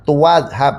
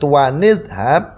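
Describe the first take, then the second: First: No n sound links the two words. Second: An n sound links the two words. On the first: "nggak usah nun kecil" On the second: "memunculkan nun kecil"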